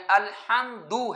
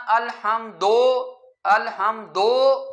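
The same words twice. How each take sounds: First: الحمدو ending in a short clear u, slow; teacher giving the correct ending of الحمدو, slow. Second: الحمدو with its final دو said as a long o, very slow; teacher demonstrating the wrong vowel in الحمدو, slow; wrong majhool do. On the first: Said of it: "یہ بھی ٹھیک نہیں ہے، الحمدو ہے". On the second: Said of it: "دال پیش دو کو جو ہے مجہول پڑھنا". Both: Shown as a demonstration.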